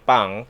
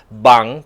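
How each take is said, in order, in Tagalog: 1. Nagsisimula ang salita sa tunog P na walang boses. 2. Nagsisimula ang salita sa tunog B na may boses. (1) "sa per syllable po, that is really pang" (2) "nami-mispronounce siya rin mga aspirants, that is uh, bang"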